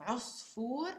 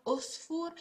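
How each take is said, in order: First: "Usfur" opened with a throat catch; Usfur with Ain. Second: "Usfur" with a plain vowel start; "Usfur" as if it began with a plain u; wrong Usfur. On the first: Teacher modelling the word for bird, throat catch on the start. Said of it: "remember, not Usfur". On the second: Teacher showing the wrong way, plain vowel start. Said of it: "not Usfur". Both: Shown as a demonstration.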